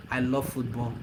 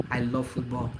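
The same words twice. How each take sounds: The two takes are said the same way.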